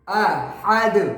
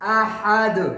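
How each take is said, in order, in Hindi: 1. अंतिम d गूंजती उछाल के साथ छोड़ा जाता है। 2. अंतिम d गूंजती उछाल के साथ छोड़ा जाता है।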